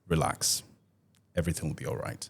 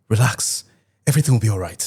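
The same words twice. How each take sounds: First: The voice sounds calm and reassuring. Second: The voice sounds tense and panicked. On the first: Everything really is fine. The speaker calls it right. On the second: Something is actually wrong. The speaker calls it wrong.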